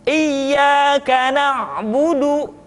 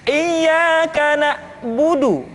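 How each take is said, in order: The two takes are said the same way.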